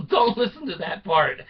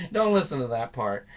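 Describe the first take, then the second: First: Joking aside. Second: Said in the usual way. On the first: Real, not acted.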